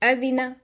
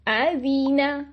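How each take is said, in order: First: The short vowels are cut off abruptly. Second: The short vowels are stretched out long. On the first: "हम इसको एक्स्ट्रा छोटा कर देते हैं" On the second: "ये मैं उनको खींच रही हूं"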